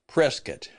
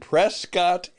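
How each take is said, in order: First: The town name is pronounced the local way. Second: The town name is pronounced the outsider way. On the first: The speaker calls it right. "we call it Prescott" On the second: The speaker calls it wrong. "he mispronounced it. He said he was going to be in Prescott"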